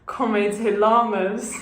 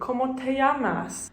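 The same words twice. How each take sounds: First: The double L sounds like an l. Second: The double L sounds like a y. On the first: The speaker calls it wrong. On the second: The speaker calls it right. "a double L is a y sound"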